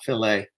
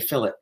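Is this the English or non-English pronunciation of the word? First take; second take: non-English; English. First: The word is said a non-English way. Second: The word is said the English way. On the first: The speaker calls it wrong. "not fillet" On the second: The speaker calls it right. "the English say fillet"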